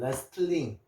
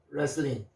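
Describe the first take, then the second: First: The word is said with a t sound. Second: The word is said with no t sound. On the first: The speaker calls it wrong. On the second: The speaker calls it right.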